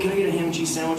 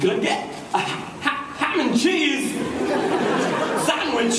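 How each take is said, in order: First: It flows smoothly with ordinary rhythm. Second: It has odd pauses and an unusual cadence. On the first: "it's one thing when you go up to craft service" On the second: "Then Walken comes in and goes"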